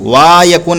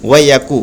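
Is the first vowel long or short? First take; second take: long; short. First: The first vowel is drawn out long. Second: The first vowel is short and quick. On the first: The speaker calls it wrong. "नहीं" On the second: The speaker calls it right. "जल्दी पढ़ेंगे"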